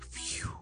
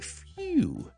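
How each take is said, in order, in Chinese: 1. 这个词是用轻柔的耳语说的。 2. 这个词是用完整的、带声的语调说的。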